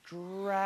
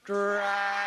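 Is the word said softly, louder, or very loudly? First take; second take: softly; louder. First: It is said very softly. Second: It is said a little louder.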